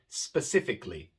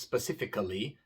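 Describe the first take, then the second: First: The a before the ending is not pronounced. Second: The a before the ending is clearly pronounced. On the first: The speaker calls it right. "es simplemente specifically" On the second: The speaker calls it wrong. "No pronunciamos la A, no decimos specifically, no"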